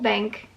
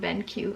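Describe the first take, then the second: First: The name sounds like the word 'bank'. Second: The name sounds like 'ben' followed by 'cue'. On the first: The speaker calls it wrong. "I thought it was called Bank" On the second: The speaker calls it right. "thank you for pointing out how to pronounce it"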